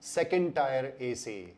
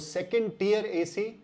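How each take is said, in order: First: The word 'tier' has the vowel of 'tie'. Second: The word 'tier' has the vowel of 'tea'. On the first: The speaker calls it wrong. "तो ये भी गलत है" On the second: The speaker calls it right. "इसका ये सही उच्चारण है"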